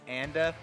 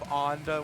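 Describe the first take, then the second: First: The name uses the plain, everyday pronunciation. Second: The name uses a more formal, elevated pronunciation. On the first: This is how the player himself says it. The speaker calls it right. "He says Anda" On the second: This sounds pretentious. The speaker calls it wrong. "high road pronunciation of Onda, which sounds very pretentious"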